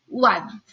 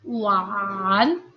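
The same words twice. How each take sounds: First: The tone only falls, without rising again. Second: The tone falls and then rises again. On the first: "kita hanya baca setengahnya saja. Turun saja" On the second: "harusnya adalah"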